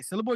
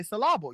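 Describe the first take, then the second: First: Syllable stressed on the first part, SYL-la-ble. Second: Syllable with stress moved to the middle, sy-LLA-ble; shifted stress. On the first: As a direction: say syllable with the weight up front. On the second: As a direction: say syllable putting the weight in the middle. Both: Shown as a demonstration. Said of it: "it's all about the stress and the syllable".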